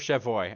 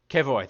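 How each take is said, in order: First: The phrase begins with a soft 'sh' sound. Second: The phrase begins with a hard 'k' sound. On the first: The speaker calls it wrong. "I still want to do the French pronunciation" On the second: The speaker calls it right. "that's it"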